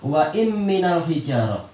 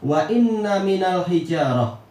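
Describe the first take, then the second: First: The n sound is short and light. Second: The n sound is held long and doubled. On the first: This is a variant reading. "dengan mukhaffafah" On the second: This is the majority reading. "Jumhur membaca ... dengan apa? Di tasdid"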